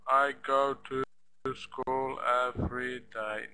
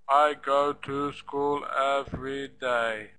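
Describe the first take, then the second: First: Every syllable is flat and equal, like a robot. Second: The same.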